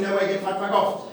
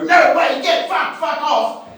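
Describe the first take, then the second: First: Said in the usual way. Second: Chanted, high, loud pub-crowd yell; chanted, yell it like the whole room at once. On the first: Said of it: "we all explain to him in the chorus". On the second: Retold or imitated. Whole room yelling back at the song, high chant. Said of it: "The whole room just yells".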